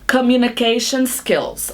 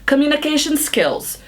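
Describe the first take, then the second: First: The phrase is said at a slower pace. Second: The phrase is said at a faster pace.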